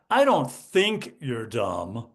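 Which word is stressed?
think. The stress falls on the word think. You are actually considered an idiot. "you think I'm an idiot"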